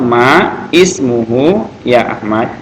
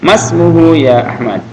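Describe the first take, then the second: First: The first two words are said separately. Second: The first two words run together as one. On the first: "Ini kalau di dipotong-potong" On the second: "karena ini hamzahnya wasal disambung"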